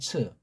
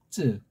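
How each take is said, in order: First: The consonant is aspirated with a puff of air. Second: The consonant is tense with no puff of air. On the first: The speaker calls it wrong. "한국은 츠츠 그러잖아" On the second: The speaker calls it right. "게르만이 이거 쯔 발음이 좀 나요"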